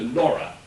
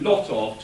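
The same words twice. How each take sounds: First: "Laura" for "lot of", the T turned into an R; rhotic Liverpool pronunciation. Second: Said in the usual way. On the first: Shown as a demonstration. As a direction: run "lot of" together as "Laura", with an R for the T. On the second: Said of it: "changing lot of to Laura".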